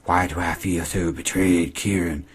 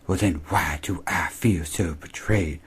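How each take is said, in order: First: Slow, voiced, only a hint of a whiny girl; a touch of mock self-pity, not whispered; lightly mocking Emma. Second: Slow, whispered and softer, imitating a hurt girl; mock wounded whisper. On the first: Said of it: "She says". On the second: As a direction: breathe it out as if deeply betrayed. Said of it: "pure Emma fashion".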